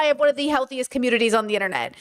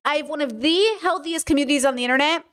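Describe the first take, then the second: First: Said in the usual way. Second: "the" picked out, said as "thee"; stress on THE. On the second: Real, not acted. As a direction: lean hard on "the" before healthiest. Repeats claim, stressing the article.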